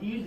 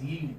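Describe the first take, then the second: First: "yield" said as "eeld", without its y; "yield" starting on a bare ee vowel; mispronounced yield. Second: "yield" with a clear y glide before the ee; "yield" said as "yeeld"; correct initial y. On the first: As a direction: leave the y glide off "yield". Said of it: "This is not yield". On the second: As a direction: sound the y at the start of "yield". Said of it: "this is yield". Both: Shown as a demonstration.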